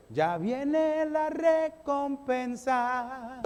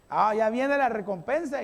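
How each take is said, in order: First: Drawn-out proclamation. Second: Said in the usual way. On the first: Shown as a demonstration.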